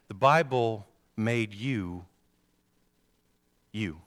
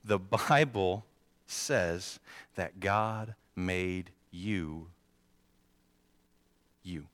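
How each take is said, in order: First: Slow, weighty first statement; measured sermon emphasis; slow emphatic. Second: Very slow, spacing out each word; drawn-out emphatic repeat; even slower repeat. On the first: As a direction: lay it down slowly. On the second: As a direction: stretch every word for the ones who missed it. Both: Shown as a demonstration. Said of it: "Let me say that one more time".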